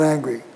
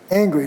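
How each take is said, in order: First: The a vowel is low and lax. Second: The a vowel is raised and tense. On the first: The speaker calls it wrong. "not angry" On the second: The speaker calls it right. "raise before velar nasals"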